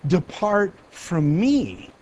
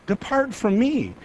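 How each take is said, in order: First: "Depart from me" drawn out very slowly, "me" stretched long; slow solemn sentence. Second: Said in the usual way. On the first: Shown as a demonstration. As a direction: pronounce the verdict slowly and gravely.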